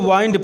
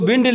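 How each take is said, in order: First: The vowel is a long 'eye', as in 'wine'. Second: The vowel is a short 'i', as in 'win'. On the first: "जब हम poem में पढ़ेंगे तो इसे वाइंड पढ़" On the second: "ये जो विंड लिखा है"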